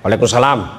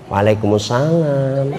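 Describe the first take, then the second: First: It is said in a firm, businesslike voice. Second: It is said in a soft, drawn-out, coaxing voice.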